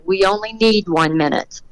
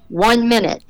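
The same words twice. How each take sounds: First: Retold calm, measured reassurance. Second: Mild mock yell, pitched higher; retold yell. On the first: Crew member answers the safety guy's warning, retold very calmly. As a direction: keep it level and unhurried. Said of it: "Eddie very calmly said". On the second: Safety safari guy warns the team of the time, retold mild yell. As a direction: call it out without raising the volume. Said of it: "safety safari guy yells".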